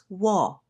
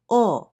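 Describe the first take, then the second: First: The syllable starts with a w sound. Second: The syllable is a bare o vowel. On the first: This is the older pronunciation of the letter. "we no longer pronounce this as wo" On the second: This is the modern pronunciation of the letter. "Now we simply say o for this letter"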